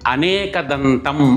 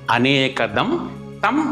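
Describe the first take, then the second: First: The words run together with no break. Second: A small break separates 'anekadam' and 'tam'. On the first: It sounds like 'many-tusked'. The speaker calls it wrong. "అనేకదంతం అని కలిపి పలుకుతారు" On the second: It means 'him, the giver of many boons'. The speaker calls it right. "అనేకదం తం అని పలకాలి"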